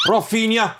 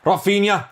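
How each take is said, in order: Both takes have the same delivery.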